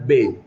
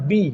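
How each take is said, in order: First: The vowel is an open 'eh' sound. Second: The vowel is a clear 'ee' sound. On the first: The speaker calls it wrong. "bukan be" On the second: The speaker calls it right. "dia dengar bi bukan be"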